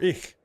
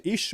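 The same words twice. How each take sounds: First: "ich" with a scraped ch; city pronunciation. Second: "ich" said as "ish"; country pronunciation. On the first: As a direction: end "ich" on German ch, not sh. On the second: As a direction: soften the end of "ich" to an sh. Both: Shown as a demonstration. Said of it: "should I say ich or ich?".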